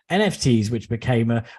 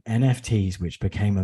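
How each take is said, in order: First: It is read in a plain, neutral tone. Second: It is read in a gloomy, depressing tone.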